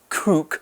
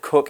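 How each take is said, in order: First: The vowel differs from the one in book. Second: The vowel matches the one in book. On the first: The speaker calls it wrong. "we don't pronounce it cook" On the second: The speaker calls it right. "We pronounce it cook in the same way that we pronounce book"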